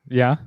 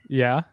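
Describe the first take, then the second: No difference in how they are said.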